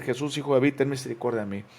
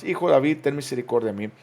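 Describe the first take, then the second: First: Said in the usual way. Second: Louder, pleading cry for mercy; crying out harder. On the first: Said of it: "comenzó a dar voces y a decir". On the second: Acted. Bartimeo cries out over those rebuking him, louder. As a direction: beg even harder over the crowd. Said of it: "pero él clamaba mucho más".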